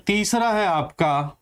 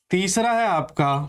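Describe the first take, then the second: No difference in how they are said.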